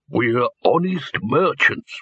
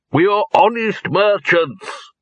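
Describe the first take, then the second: First: Said in the usual way. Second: High, slow and emphatic proclamation; loud declaration. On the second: A narrator's reading. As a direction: announce it for all around to hear. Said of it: "he repeated loudly".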